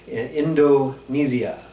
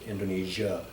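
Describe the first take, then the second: First: Every syllable is enunciated, with a z-like s. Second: The ending is compressed, with fewer distinct syllables. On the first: This is how locals say it. "They really enunciate and they don't compress the end" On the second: This is how Americans say it. "I quite often will pronounce it Indonesia"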